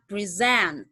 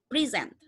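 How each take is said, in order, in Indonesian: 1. Tekanannya ada pada suku kata kedua. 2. Tekanannya ada pada suku kata pertama. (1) "Jadi send-nya yang ditekan" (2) "Pre and send. Send-nya adalah more normal"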